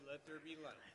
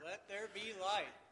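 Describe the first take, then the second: First: It is said at a normal, softer volume. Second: It is said louder, stressing "there".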